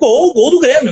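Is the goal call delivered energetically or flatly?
energetic. The call is delivered with energy and commitment. The goal is narrated respectfully. The speaker calls it right.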